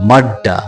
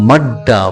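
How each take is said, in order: No difference in how they are said.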